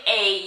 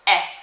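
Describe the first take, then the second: First: The letter is said as its alphabet name. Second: The letter is said as its short sound. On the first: "instead of saying A" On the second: "you have to say the sound of the letter"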